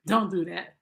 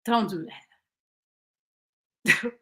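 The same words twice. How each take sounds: First: "Don't do that" said through a laugh. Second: Said in the usual way. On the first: Shown as a demonstration. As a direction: laugh as you repeat "Don't do that".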